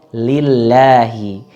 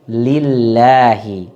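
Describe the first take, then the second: No difference in how they are said.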